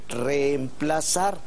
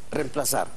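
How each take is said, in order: First: The opening e sound is doubled, held long. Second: The opening e sound is single and short. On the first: "Lo más adecuado y culto es lo segundo" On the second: "una sola E"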